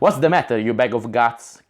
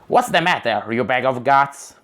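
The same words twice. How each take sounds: First: It is voiced in Gord's character voice. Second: It is voiced in another character's voice.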